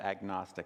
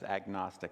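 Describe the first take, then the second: First: The G sound is clearly pronounced. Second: The same.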